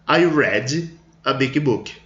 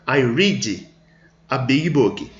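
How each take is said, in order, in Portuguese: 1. 'Read' é pronunciado na forma do passado. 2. 'Read' é pronunciado na forma do presente. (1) "Eu li um livro grande" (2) "Eu leio um livro grande"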